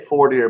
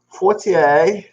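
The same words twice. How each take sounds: First: The name is said with an English pronunciation. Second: The name is said with a French pronunciation. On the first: "I say Fortier" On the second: "the French ancestors say Fortier"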